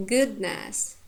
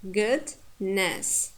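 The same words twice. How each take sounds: First: Said in the usual way. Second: "goodness" in two parts, good, pause, ness; "goodness" pulled apart with a clear gap; split into morphemes. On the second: Shown as a demonstration. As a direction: say "goodness" broken between stem and suffix.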